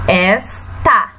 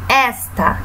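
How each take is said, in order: First: "Esta" split in two, a pause before the final "ta"; syllable by syllable. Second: Said in the usual way. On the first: Shown as a demonstration. Teacher showing children the two syllables, syllable by syllable. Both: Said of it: "Nós temos duas sílabas".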